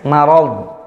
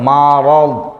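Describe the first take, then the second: First: The first syllable ma sounds light and thin. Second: The first syllable ma sounds heavy and dark. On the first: The speaker calls it right. "Kalau ma-nya tipis" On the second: The speaker calls it wrong. "ma bacanya tebal"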